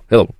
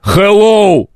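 First: Said lightly and fluently, sounds run together. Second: Said harshly, every sound carefully pronounced. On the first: The speaker calls it right. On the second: The speaker calls it wrong.

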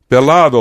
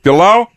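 First: The d sound is clearly pronounced. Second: The d sound is dropped entirely.

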